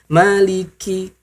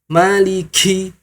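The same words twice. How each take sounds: First: The k releases only a light puff of breath. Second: The k releases a heavy burst of breath. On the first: The speaker calls it right. "santai saja" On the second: The speaker calls it wrong. "Jangan sampai"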